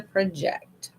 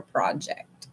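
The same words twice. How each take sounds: First: "project" as pruh-JECT, stressed on the second syllable; verb pronunciation. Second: "project" as PRAH-ject, stressed on the first syllable; noun pronunciation. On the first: Tarot reader choosing how to read a card, "project" as pruh-JECT. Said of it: "I'm going to say project". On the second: Tarot reader offering the other reading, "project" as PRAH-ject. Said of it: "not project". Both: Shown as a demonstration.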